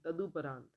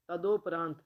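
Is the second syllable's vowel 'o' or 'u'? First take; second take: u; o. First: The second syllable has a 'u' vowel. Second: The second syllable has an 'o' vowel. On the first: The speaker calls it right. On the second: The speaker calls it wrong.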